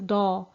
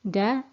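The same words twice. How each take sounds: First: The consonant sounds thick and heavy. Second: The consonant sounds thin and light. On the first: The speaker calls it wrong. "it shouldn't be pronounced as da" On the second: The speaker calls it right. "the dal is a thin letter"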